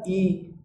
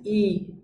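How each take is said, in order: First: The vowel is said thick and heavy. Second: The vowel is said thin and light. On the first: "bunyi tebal" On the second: "bunyi i tipis"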